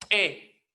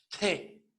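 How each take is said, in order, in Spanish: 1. La consonante se suelta con un chasquido glotal brusco. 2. La consonante se suelta con un soplo de aire. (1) "la T explosiva" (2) "T aspirada"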